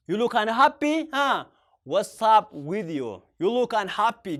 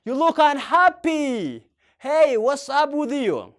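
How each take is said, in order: First: Slow, at usual level; slow repeat. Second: Louder, slow, concerned; loud slow model. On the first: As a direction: repeat gently and slowly. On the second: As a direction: ask a sad friend, loud and slow. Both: Shown as a demonstration. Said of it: "Akka jettee gaafachuu dandeetta".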